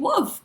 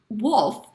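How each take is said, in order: First: The L sound is dropped, like woof. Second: The L sound is clearly pronounced. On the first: The speaker calls it wrong. "It sounds like I'm saying wolf" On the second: The speaker calls it right. "but I mean wolf"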